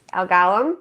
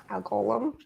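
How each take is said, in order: First: First vowel of Golem as in "father"; Golem as GAH-lum. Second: First vowel of Golem as in "go"; Golem as GOH-lum. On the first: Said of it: "figures out how to say Golem". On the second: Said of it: "Golems is how you're saying it". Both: Shown as a demonstration.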